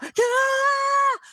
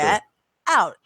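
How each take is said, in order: First: It is shouted angrily. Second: It is said calmly and firmly.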